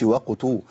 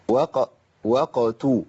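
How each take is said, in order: First: "وقتوا" quicker, lips rounded early on the qaf; rushed rounded qaf. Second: Slow "وقتوا", the qaf finished with an echo before the taa; clean bouncing qaf. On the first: Teacher showing what to avoid, "وقتوا" with rounding begun too early. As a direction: anticipate the taa's oo inside the qaf of "وقتوا". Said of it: "ما أقولش وقتوا". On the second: Teacher modelling for students, "وقتوا" slowly with a distinct echoed qaf. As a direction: release the qaf in "وقتوا", then round the lips for the taa. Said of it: "أخلص القاف الأول وبعدين أنتقل للتاء".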